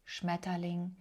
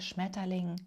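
No difference in how they are said.

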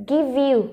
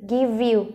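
No difference in how they are said.

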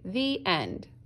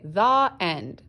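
First: The word 'the' has a long E vowel. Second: The word 'the' has a short uh vowel. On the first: "I usually say the end" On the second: "I usually don't say the end"

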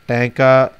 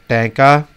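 The two takes are said the same way.

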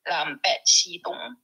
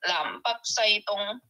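First: The words are read in Hakka pronunciation. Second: The words are read in Cantonese pronunciation. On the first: "in another dialect, which is Hakka" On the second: "If I were to say this in Cantonese"

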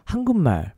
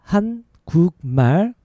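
First: The word is spoken at a faster pace. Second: The word is spoken at a slower pace.

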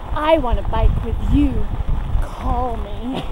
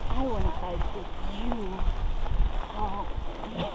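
First: It is said at a louder volume. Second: It is said at a quieter volume.

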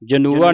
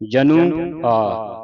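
First: The word is said as one joined unit. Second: The final syllable is split off separately. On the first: The speaker calls it wrong. "ਜਨੂਆ ਨਹੀਂ ਪੜਨਾ" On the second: The speaker calls it right. "ਇਹ ਵੱਖਰਾ ਕਰੋ... ਇਸ ਤਰ੍ਹਾਂ ਪੜਨਾ"

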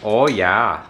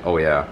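First: It has an exaggerated movie Fargo accent. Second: It has the speaker's normal everyday accent.

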